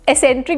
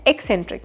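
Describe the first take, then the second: First: The word starts with an s sound, no k. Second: A k sound comes before the s sound. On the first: The speaker calls it wrong. "बहुत सारे लोग एसेंट्रिक भी बोलते हैं, जो कि गलत होता है" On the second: The speaker calls it right. "सही प्रोनाउंसिएशन है एक्सेंट्रिक, मतलब क की आवाज आती है"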